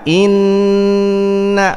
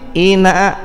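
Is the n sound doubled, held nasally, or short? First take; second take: held nasally; short. First: The n is doubled and held with nasal resonance. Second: The n is single and short. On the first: The speaker calls it right. "pasang gunnah" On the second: The speaker calls it wrong. "hilang tasdid"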